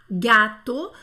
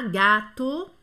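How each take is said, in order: First: Gâteau said loudly with a wide-open A. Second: Gâteau with the open A held long; old-fashioned gâteau, lingering on the A; lengthened A. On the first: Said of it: "é bem aberto". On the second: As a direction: stretch the first vowel of "Gâteau". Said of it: "um pouquinho mais comprido". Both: Shown as a demonstration.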